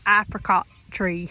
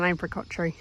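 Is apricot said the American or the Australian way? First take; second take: American; Australian. First: Apricot is said with an American pronunciation. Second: Apricot is said with an Australian pronunciation. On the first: "the Americans ... they say apricot tree" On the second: "in Australia we call it an apricot tree"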